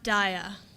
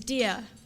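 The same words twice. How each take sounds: First: The name is said with an anglicized pronunciation. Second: The name is said with its Gujarati pronunciation. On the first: This is how others wrongly say the name. The speaker calls it wrong. "My name is not Dia" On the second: This is the name as it truly is. The speaker calls it right. "My name is Dia, which in Gujarati means light"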